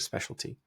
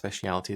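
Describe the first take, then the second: First: It is said with four syllables, spe-cial-ty. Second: It is said with five syllables, spe-ci-al-i-ty. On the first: The speaker calls it right. "the word is specialty" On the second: The speaker calls it wrong. "it's actually not speciality"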